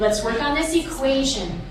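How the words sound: The word equation carries the main stress. The speaker calls it right. "our focus word, which is equation"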